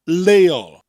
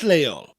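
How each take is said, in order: First: The word starts with a plain L sound. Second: The word starts with a breathy hissed L sound. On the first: "It sounds almost like you're saying, lay all" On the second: "with that double L sound in the front, that sound"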